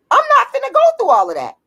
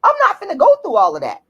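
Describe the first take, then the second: First: "go" pitched higher in fed-up disbelief; exasperated higher repeat. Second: Said in the usual way. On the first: Real, not acted. Ranting vlogger repeats it, higher and fed up. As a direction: say it again up high, done with it.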